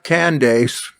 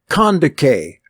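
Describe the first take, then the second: First: The name ends with an 's' sound. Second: The name ends with a 'kay' sound. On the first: The speaker calls it wrong. "not Candace" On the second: The speaker calls it right. "That's how you pronounce it"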